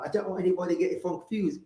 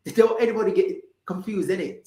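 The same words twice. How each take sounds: First: Lightly put-on British accent, a little softer. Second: Put-on quick, high, cheeky British accent. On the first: Host doesn't want anybody confused, mild British accent. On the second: Host repeating herself for listeners, playful quick British accent. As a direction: lay the British accent on faster. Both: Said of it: "get in my British accent".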